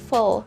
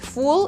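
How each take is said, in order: First: The last syllable has a reduced schwa vowel. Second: The last syllable has a full, clear vowel. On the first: The speaker calls it right. "The letter U in F U L is a schwa, instead you say full" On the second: The speaker calls it wrong. "so you don't say full"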